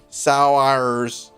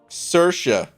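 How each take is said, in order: First: The name sounds like the English word sours. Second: The name does not sound like sours. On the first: The speaker calls it wrong. "it would be something like Saurs" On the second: The speaker calls it right. "how you actually pronounce this"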